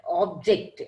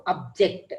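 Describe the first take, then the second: First: OBject, weight on OB; stress on first syllable. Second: ObJECT, weight on JECT; stress on second syllable. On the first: Teacher giving a noun example, OB stressed in "object". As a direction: hit the OB of "object". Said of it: "So first one is stressed". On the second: Teacher giving a verb example, JECT stressed in "object". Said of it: "J E C T is stressed". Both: Shown as a demonstration.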